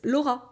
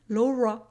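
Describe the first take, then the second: First: The name is said with a French R. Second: The name is said with an English R. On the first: "but it's Laura" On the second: "you're pronouncing it Laura"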